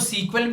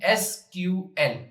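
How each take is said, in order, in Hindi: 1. इसे एक शब्द की तरह बोला जाता है, सीक्वल। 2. इसे तीन अलग-अलग अक्षरों की तरह बोला जाता है। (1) "इसको सीक्वल भी कहते हैं" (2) "अलग अलग भी प्रोनाउंस कर सकते हैं"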